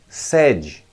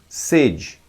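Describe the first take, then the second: First: The first vowel is an open e. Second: The first vowel is a closed e. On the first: It means a main office or headquarters. "deve ser pronunciado com o E aberto na primeira sílaba" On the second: It means the desire to drink. "deve ser pronunciado com E fechado, na primeira sílaba"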